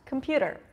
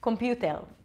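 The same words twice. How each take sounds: First: It is said with a native English accent. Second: It is said with an Israeli accent. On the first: "I'll say it once in English" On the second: "I'll say it with my Israeli accent"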